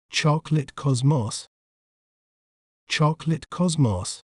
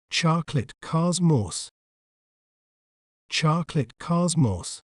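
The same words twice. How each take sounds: First: British pronunciation of "chocolate cosmos", short rounded o in "cosmos"; British accent. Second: American pronunciation of "chocolate cosmos", open "ah" vowels; American accent. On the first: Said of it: "In British accent". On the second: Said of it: "In American accent". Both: Shown as a demonstration.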